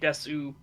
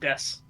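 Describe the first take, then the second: First: The final u vowel is clearly pronounced. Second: The final u vowel is dropped entirely. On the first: The speaker calls it wrong. "you don't say Desu. That's that's a trap" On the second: The speaker calls it right. "It's just Des"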